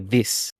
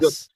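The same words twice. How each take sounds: First: The word is said with an Australian vowel. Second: The word is said with a New Zealand vowel. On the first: "I wouldn't say this if I was uh, a Kiwi" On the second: "I'd say"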